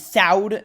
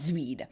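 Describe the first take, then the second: First: The name sounds like 'soud'. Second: The name sounds like 'zweed'. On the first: The speaker calls it right. "and Soud" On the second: The speaker calls it wrong. "not ... Zweed"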